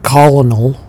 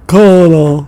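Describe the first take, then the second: First: Each syllable is pronounced clearly and separately. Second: The syllables are run together into one blend. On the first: This is the older way of saying it. "It used to be like colonel" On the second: This is how the British came to say it. "because they were British, it was like colonel"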